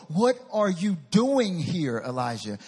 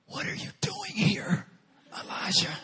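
First: Slow, loud, every word weighted; "What are you doing here" drawn out word by word; emphatic confrontation. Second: Still small voice. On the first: God repeats his question to Elijah, slow and firm. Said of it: "the exact same thing he said before". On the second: God confronts Elijah in the cave, intense whisper. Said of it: "said to him in a still small voice". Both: Acted.

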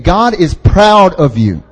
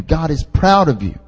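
First: "God is proud of you" slow and firmly stressed; emphatic repeat. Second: Said in the usual way. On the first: Real, not acted. Preacher repeating to congregation, "God is proud of you" slow and emphatic. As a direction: drive home each word of "God is proud of you", slowly. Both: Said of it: "I'll say it again".

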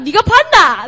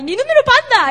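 First: Louder, higher Busan dialect jab; a hint of a Busan mom challenging; short Busan-accented retort. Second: Much higher, hammed-up Busan dialect; shrieking Busan-accented mom, mock; exaggerated Busan accent. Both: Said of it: "like, Busan accent".

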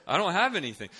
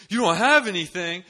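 First: High, loud protest of helplessness; panicked admission. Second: Very high, very loud incredulous question; shocked disbelief. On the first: Student caught without a gift, mock panic. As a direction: blurt the confession in mock panic. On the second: Friend shocked at the missing gift, incredulous. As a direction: throw it back, aghast. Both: Retold or imitated.

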